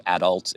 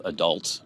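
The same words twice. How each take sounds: First: "adult" stressed on the first syllable; Canadian syllable stress. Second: "adult" stressed on the second syllable; American syllable stress. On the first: Showing Canadian word stress, "adult" with emphasis on AD. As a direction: say "adult" as AD-ult. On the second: Contrasting with Canadian word stress, "adult" with emphasis on DULT. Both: Shown as a demonstration. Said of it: "put the emphasis on different syllables".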